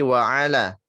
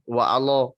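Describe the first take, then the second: First: The lam is said light, with a clear vowel. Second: The lam is said heavy, with a dark vowel. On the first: The speaker calls it right. "tapi wa'ala" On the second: The speaker calls it wrong. "jangan menebalkan huruf lam"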